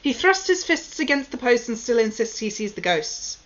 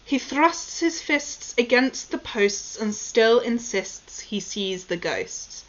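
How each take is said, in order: First: It is said very quickly, at a rapid pace. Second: It is said at a slower, careful pace.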